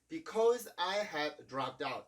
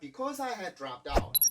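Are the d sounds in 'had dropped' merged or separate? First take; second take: separate; merged. First: The two d sounds are said separately. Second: The two d sounds merge into one. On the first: The speaker calls it wrong. "이런 식으로 발음하는 게 아니라" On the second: The speaker calls it right. "이렇게 발음을 해주고 있죠"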